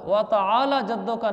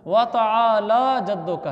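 First: व तआला जद्दुका run quickly, ला unstretched; wrong pronunciation. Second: व तआला जद्दुका slowly with long ला; correct pronunciation. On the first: (व तआला जद्दुका, बिना खींचे गलत अदायगी) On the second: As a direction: stretch both long vowels in व तआला जद्दुका. (व तआला जद्दुका, ला को खींच कर) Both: Shown as a demonstration. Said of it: "व तआला जद्दुका नहीं है".

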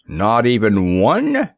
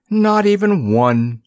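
First: Slow, peevish disbelieving question. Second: Slow, higher, firm solemn reassurance; solemn assurance. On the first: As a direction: whine it out, put out. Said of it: "exclaimed Samuel peevishly". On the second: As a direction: assure him gravely, drawing it out. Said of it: "Nickaboo assured him solemnly". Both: Acted.

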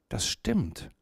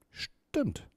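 First: Mildly taken aback, softer; a quiet, understated touch of wonder; puzzled. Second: Hushed amazement, barely voiced; astonished. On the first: Mia answers the owl who knows her name, puzzled. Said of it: "antwortete Mia verwundert". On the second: Mia confirms the owl read her thoughts, astonished. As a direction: let it out softly, struck with wonder. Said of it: "antwortete Mia erstaunt". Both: A narrator's reading.

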